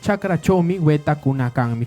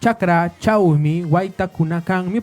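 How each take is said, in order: First: The middle words are said with single vowels. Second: The middle words are said with diphthongs. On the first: This is how it is said locally. "nosotros pronunciamos como yo lo estoy diciendo" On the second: This follows the official written form. "Tenemos escrito"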